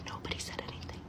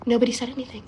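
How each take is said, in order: First: Near-whispered, barely audible aside; hushed repeat. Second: Said in the usual way. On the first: Real, not acted. Teller on the family's silence, hushed repeat. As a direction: drop it to a secretive whisper.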